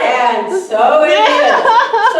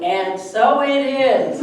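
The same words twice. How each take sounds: First: High, loud, very slow laughing "and so it is"; laughing affirmation. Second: Slow, calm "And so it is"; slowly reassuring her panicking friend; calm affirmation. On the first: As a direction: stretch it out loud through laughter. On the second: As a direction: draw it out calmly to soothe her. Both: Shown as a demonstration.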